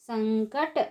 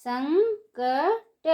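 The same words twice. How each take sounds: First: Said in the usual way. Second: संकट drawn out slowly, syllable by syllable; slow syllable drill. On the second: Shown as a demonstration. Teacher spells संकट out slowly for children. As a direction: stretch संकट slowly for the class. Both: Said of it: "उसी को ऊंची आवाज़ में कैसे पढ़ेंगे".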